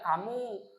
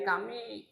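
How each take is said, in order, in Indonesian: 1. Kata kam berakhir dengan vokal u. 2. Kata kam berakhir dengan vokal i. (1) "Tidak boleh sampean membaca kamu" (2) "dibaca juga menjadi kami, salah"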